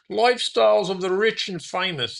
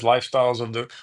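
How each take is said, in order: First: A hammed-up Robin Leach British accent, pitched much higher; Robin Leach impression. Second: Said in the usual way. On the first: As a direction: sell Lifestyles of the Rich and Famous like Robin Leach's TV host accent, way up high. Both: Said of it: "That's probably a terrible accent".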